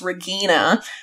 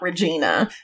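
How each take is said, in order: First: The G is said as a hard sound. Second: The G is said as a soft sound. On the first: The speaker calls it right. "her name is with a hard G" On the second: The speaker calls it wrong. "not Regina"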